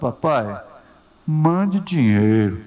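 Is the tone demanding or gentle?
gentle. It is said in a soft, gentle tone. The son is asking affectionately. The speaker calls it right. "não é assim que ele está falando"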